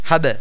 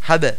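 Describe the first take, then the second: No difference in how they are said.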